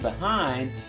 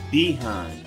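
First: The word has the standard stress placement. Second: The word has the Southern stress placement. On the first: "Instead of saying behind" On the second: "the stress of the word"

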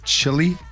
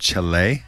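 First: It is said with an English pronunciation. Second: It is said with a Spanish pronunciation.

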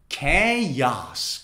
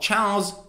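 First: It is said as two syllables, starting with k. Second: It is said as one syllable, rhyming with cows. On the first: The speaker calls it right. "It's actually chaos" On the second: The speaker calls it wrong. "It's like saying chow and then making it plural"

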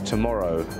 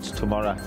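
First: It is said in a standard English accent. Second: It is said in a local Teesside accent. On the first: The speaker calls it right. "It's tomorrow, ... Standard English" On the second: The speaker calls it wrong. "not tomorrow"

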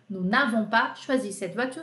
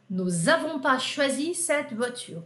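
First: An n sound is heard before avons. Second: There is no n sound before avons. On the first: This is the full standard form. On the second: This is the casual spoken form.

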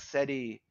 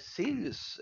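First: It is said like Portuguese 'série'. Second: It is said like English 'Sirius'. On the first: "o pessoal falando série, séries. Série X, série" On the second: "A pronúncia em inglês"

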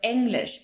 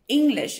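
First: The first vowel is given a German-style sound. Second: The first vowel is given an English-style sound. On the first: The speaker calls it right. "instead of English, because the E is pronounced differently" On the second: The speaker calls it wrong. "English speakers usually do when they speak German is they say English"

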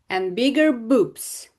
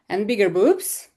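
First: The pitch falls at the end. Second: The pitch rises at the end. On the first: It is a statement ending the list. The speaker calls it right. "Стверджувальні речення у нас інтонація йде вниз" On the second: The list is still continuing. The speaker calls it wrong. "Це було б вверх"

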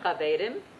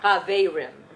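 First: The R is rolled with the tongue tip. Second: The R is a smooth English-style R. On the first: The speaker calls it right. "if you know Spanish, you can roll it" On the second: The speaker calls it wrong. "So that is one way not to say an R"

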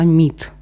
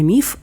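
First: The word ends with a t sound. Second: The word ends with an f sound. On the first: This is the newer, fashionable form. "а «міт»" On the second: This is the older, traditional form. "Зараз модно казати не «міф»"

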